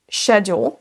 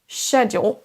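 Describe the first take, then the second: First: The word begins with a soft sh sound. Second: The word begins with a soft sh sound.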